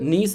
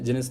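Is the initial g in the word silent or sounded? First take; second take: silent; sounded. First: The word starts with an n sound, g silent. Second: The word starts with a sounded g before n. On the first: "ജി ഉച്ചരിക്കാതെ നീസ്" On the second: "ജെനിസ് എന്ന് വേണമെങ്കിൽ എന്ത് ചെയ്യാം, ഉച്ചരി ഉച്ചരിക്കാം"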